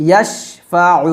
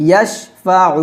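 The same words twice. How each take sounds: The two takes are said the same way.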